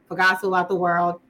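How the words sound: It is said in an American accent.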